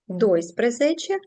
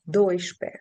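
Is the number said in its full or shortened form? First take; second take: full; shortened. First: The full ending sprezece is pronounced. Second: The ending is shortened to șpe. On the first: "частка спрезече довга" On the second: "вона скоротилася і перетворилася на три літери шпе"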